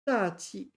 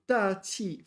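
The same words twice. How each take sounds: First: The second syllable is light and toneless. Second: Both syllables carry a falling fourth tone. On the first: "fourth tone, neutral tone" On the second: "fourth tone, fourth tone"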